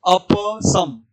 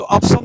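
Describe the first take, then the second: First: अप as a-pa, held, then a separate सम; correct अप सम. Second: अप सम joined as "apsam"; wrong अप सम. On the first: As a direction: sound the vowel after प in अप, then सम. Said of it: "हमें क्या बोलना है?". (अप के प का पूरा उच्चारण, सम अलग) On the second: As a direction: cut अप to "ap", straight into सम. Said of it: "अप सम नहीं बोलना है". (अप का प अधूरा, सम से जुड़ा हुआ) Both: Shown as a demonstration.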